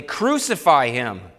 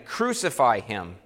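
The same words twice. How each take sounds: First: Slow and louder, the crowd's demand pushed harder; crying out more exceedingly. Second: Crowd crying out. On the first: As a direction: lean into it, a heavier and louder slow cry. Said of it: "cried out the more exceedingly". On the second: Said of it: "they cried out again". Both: A narrator's reading.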